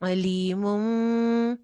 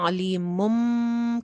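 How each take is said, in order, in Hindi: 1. m होंठों को ढीला रखकर बनती है। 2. m होंठों को कसकर दबाकर बनती है। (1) "लिप्स को बहुत ज्यादा आपस में जो टाइटली ज्वाइन नहीं करना, थोड़ा थोड़ा ढीला ढीला रहने देना" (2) "की बजाय"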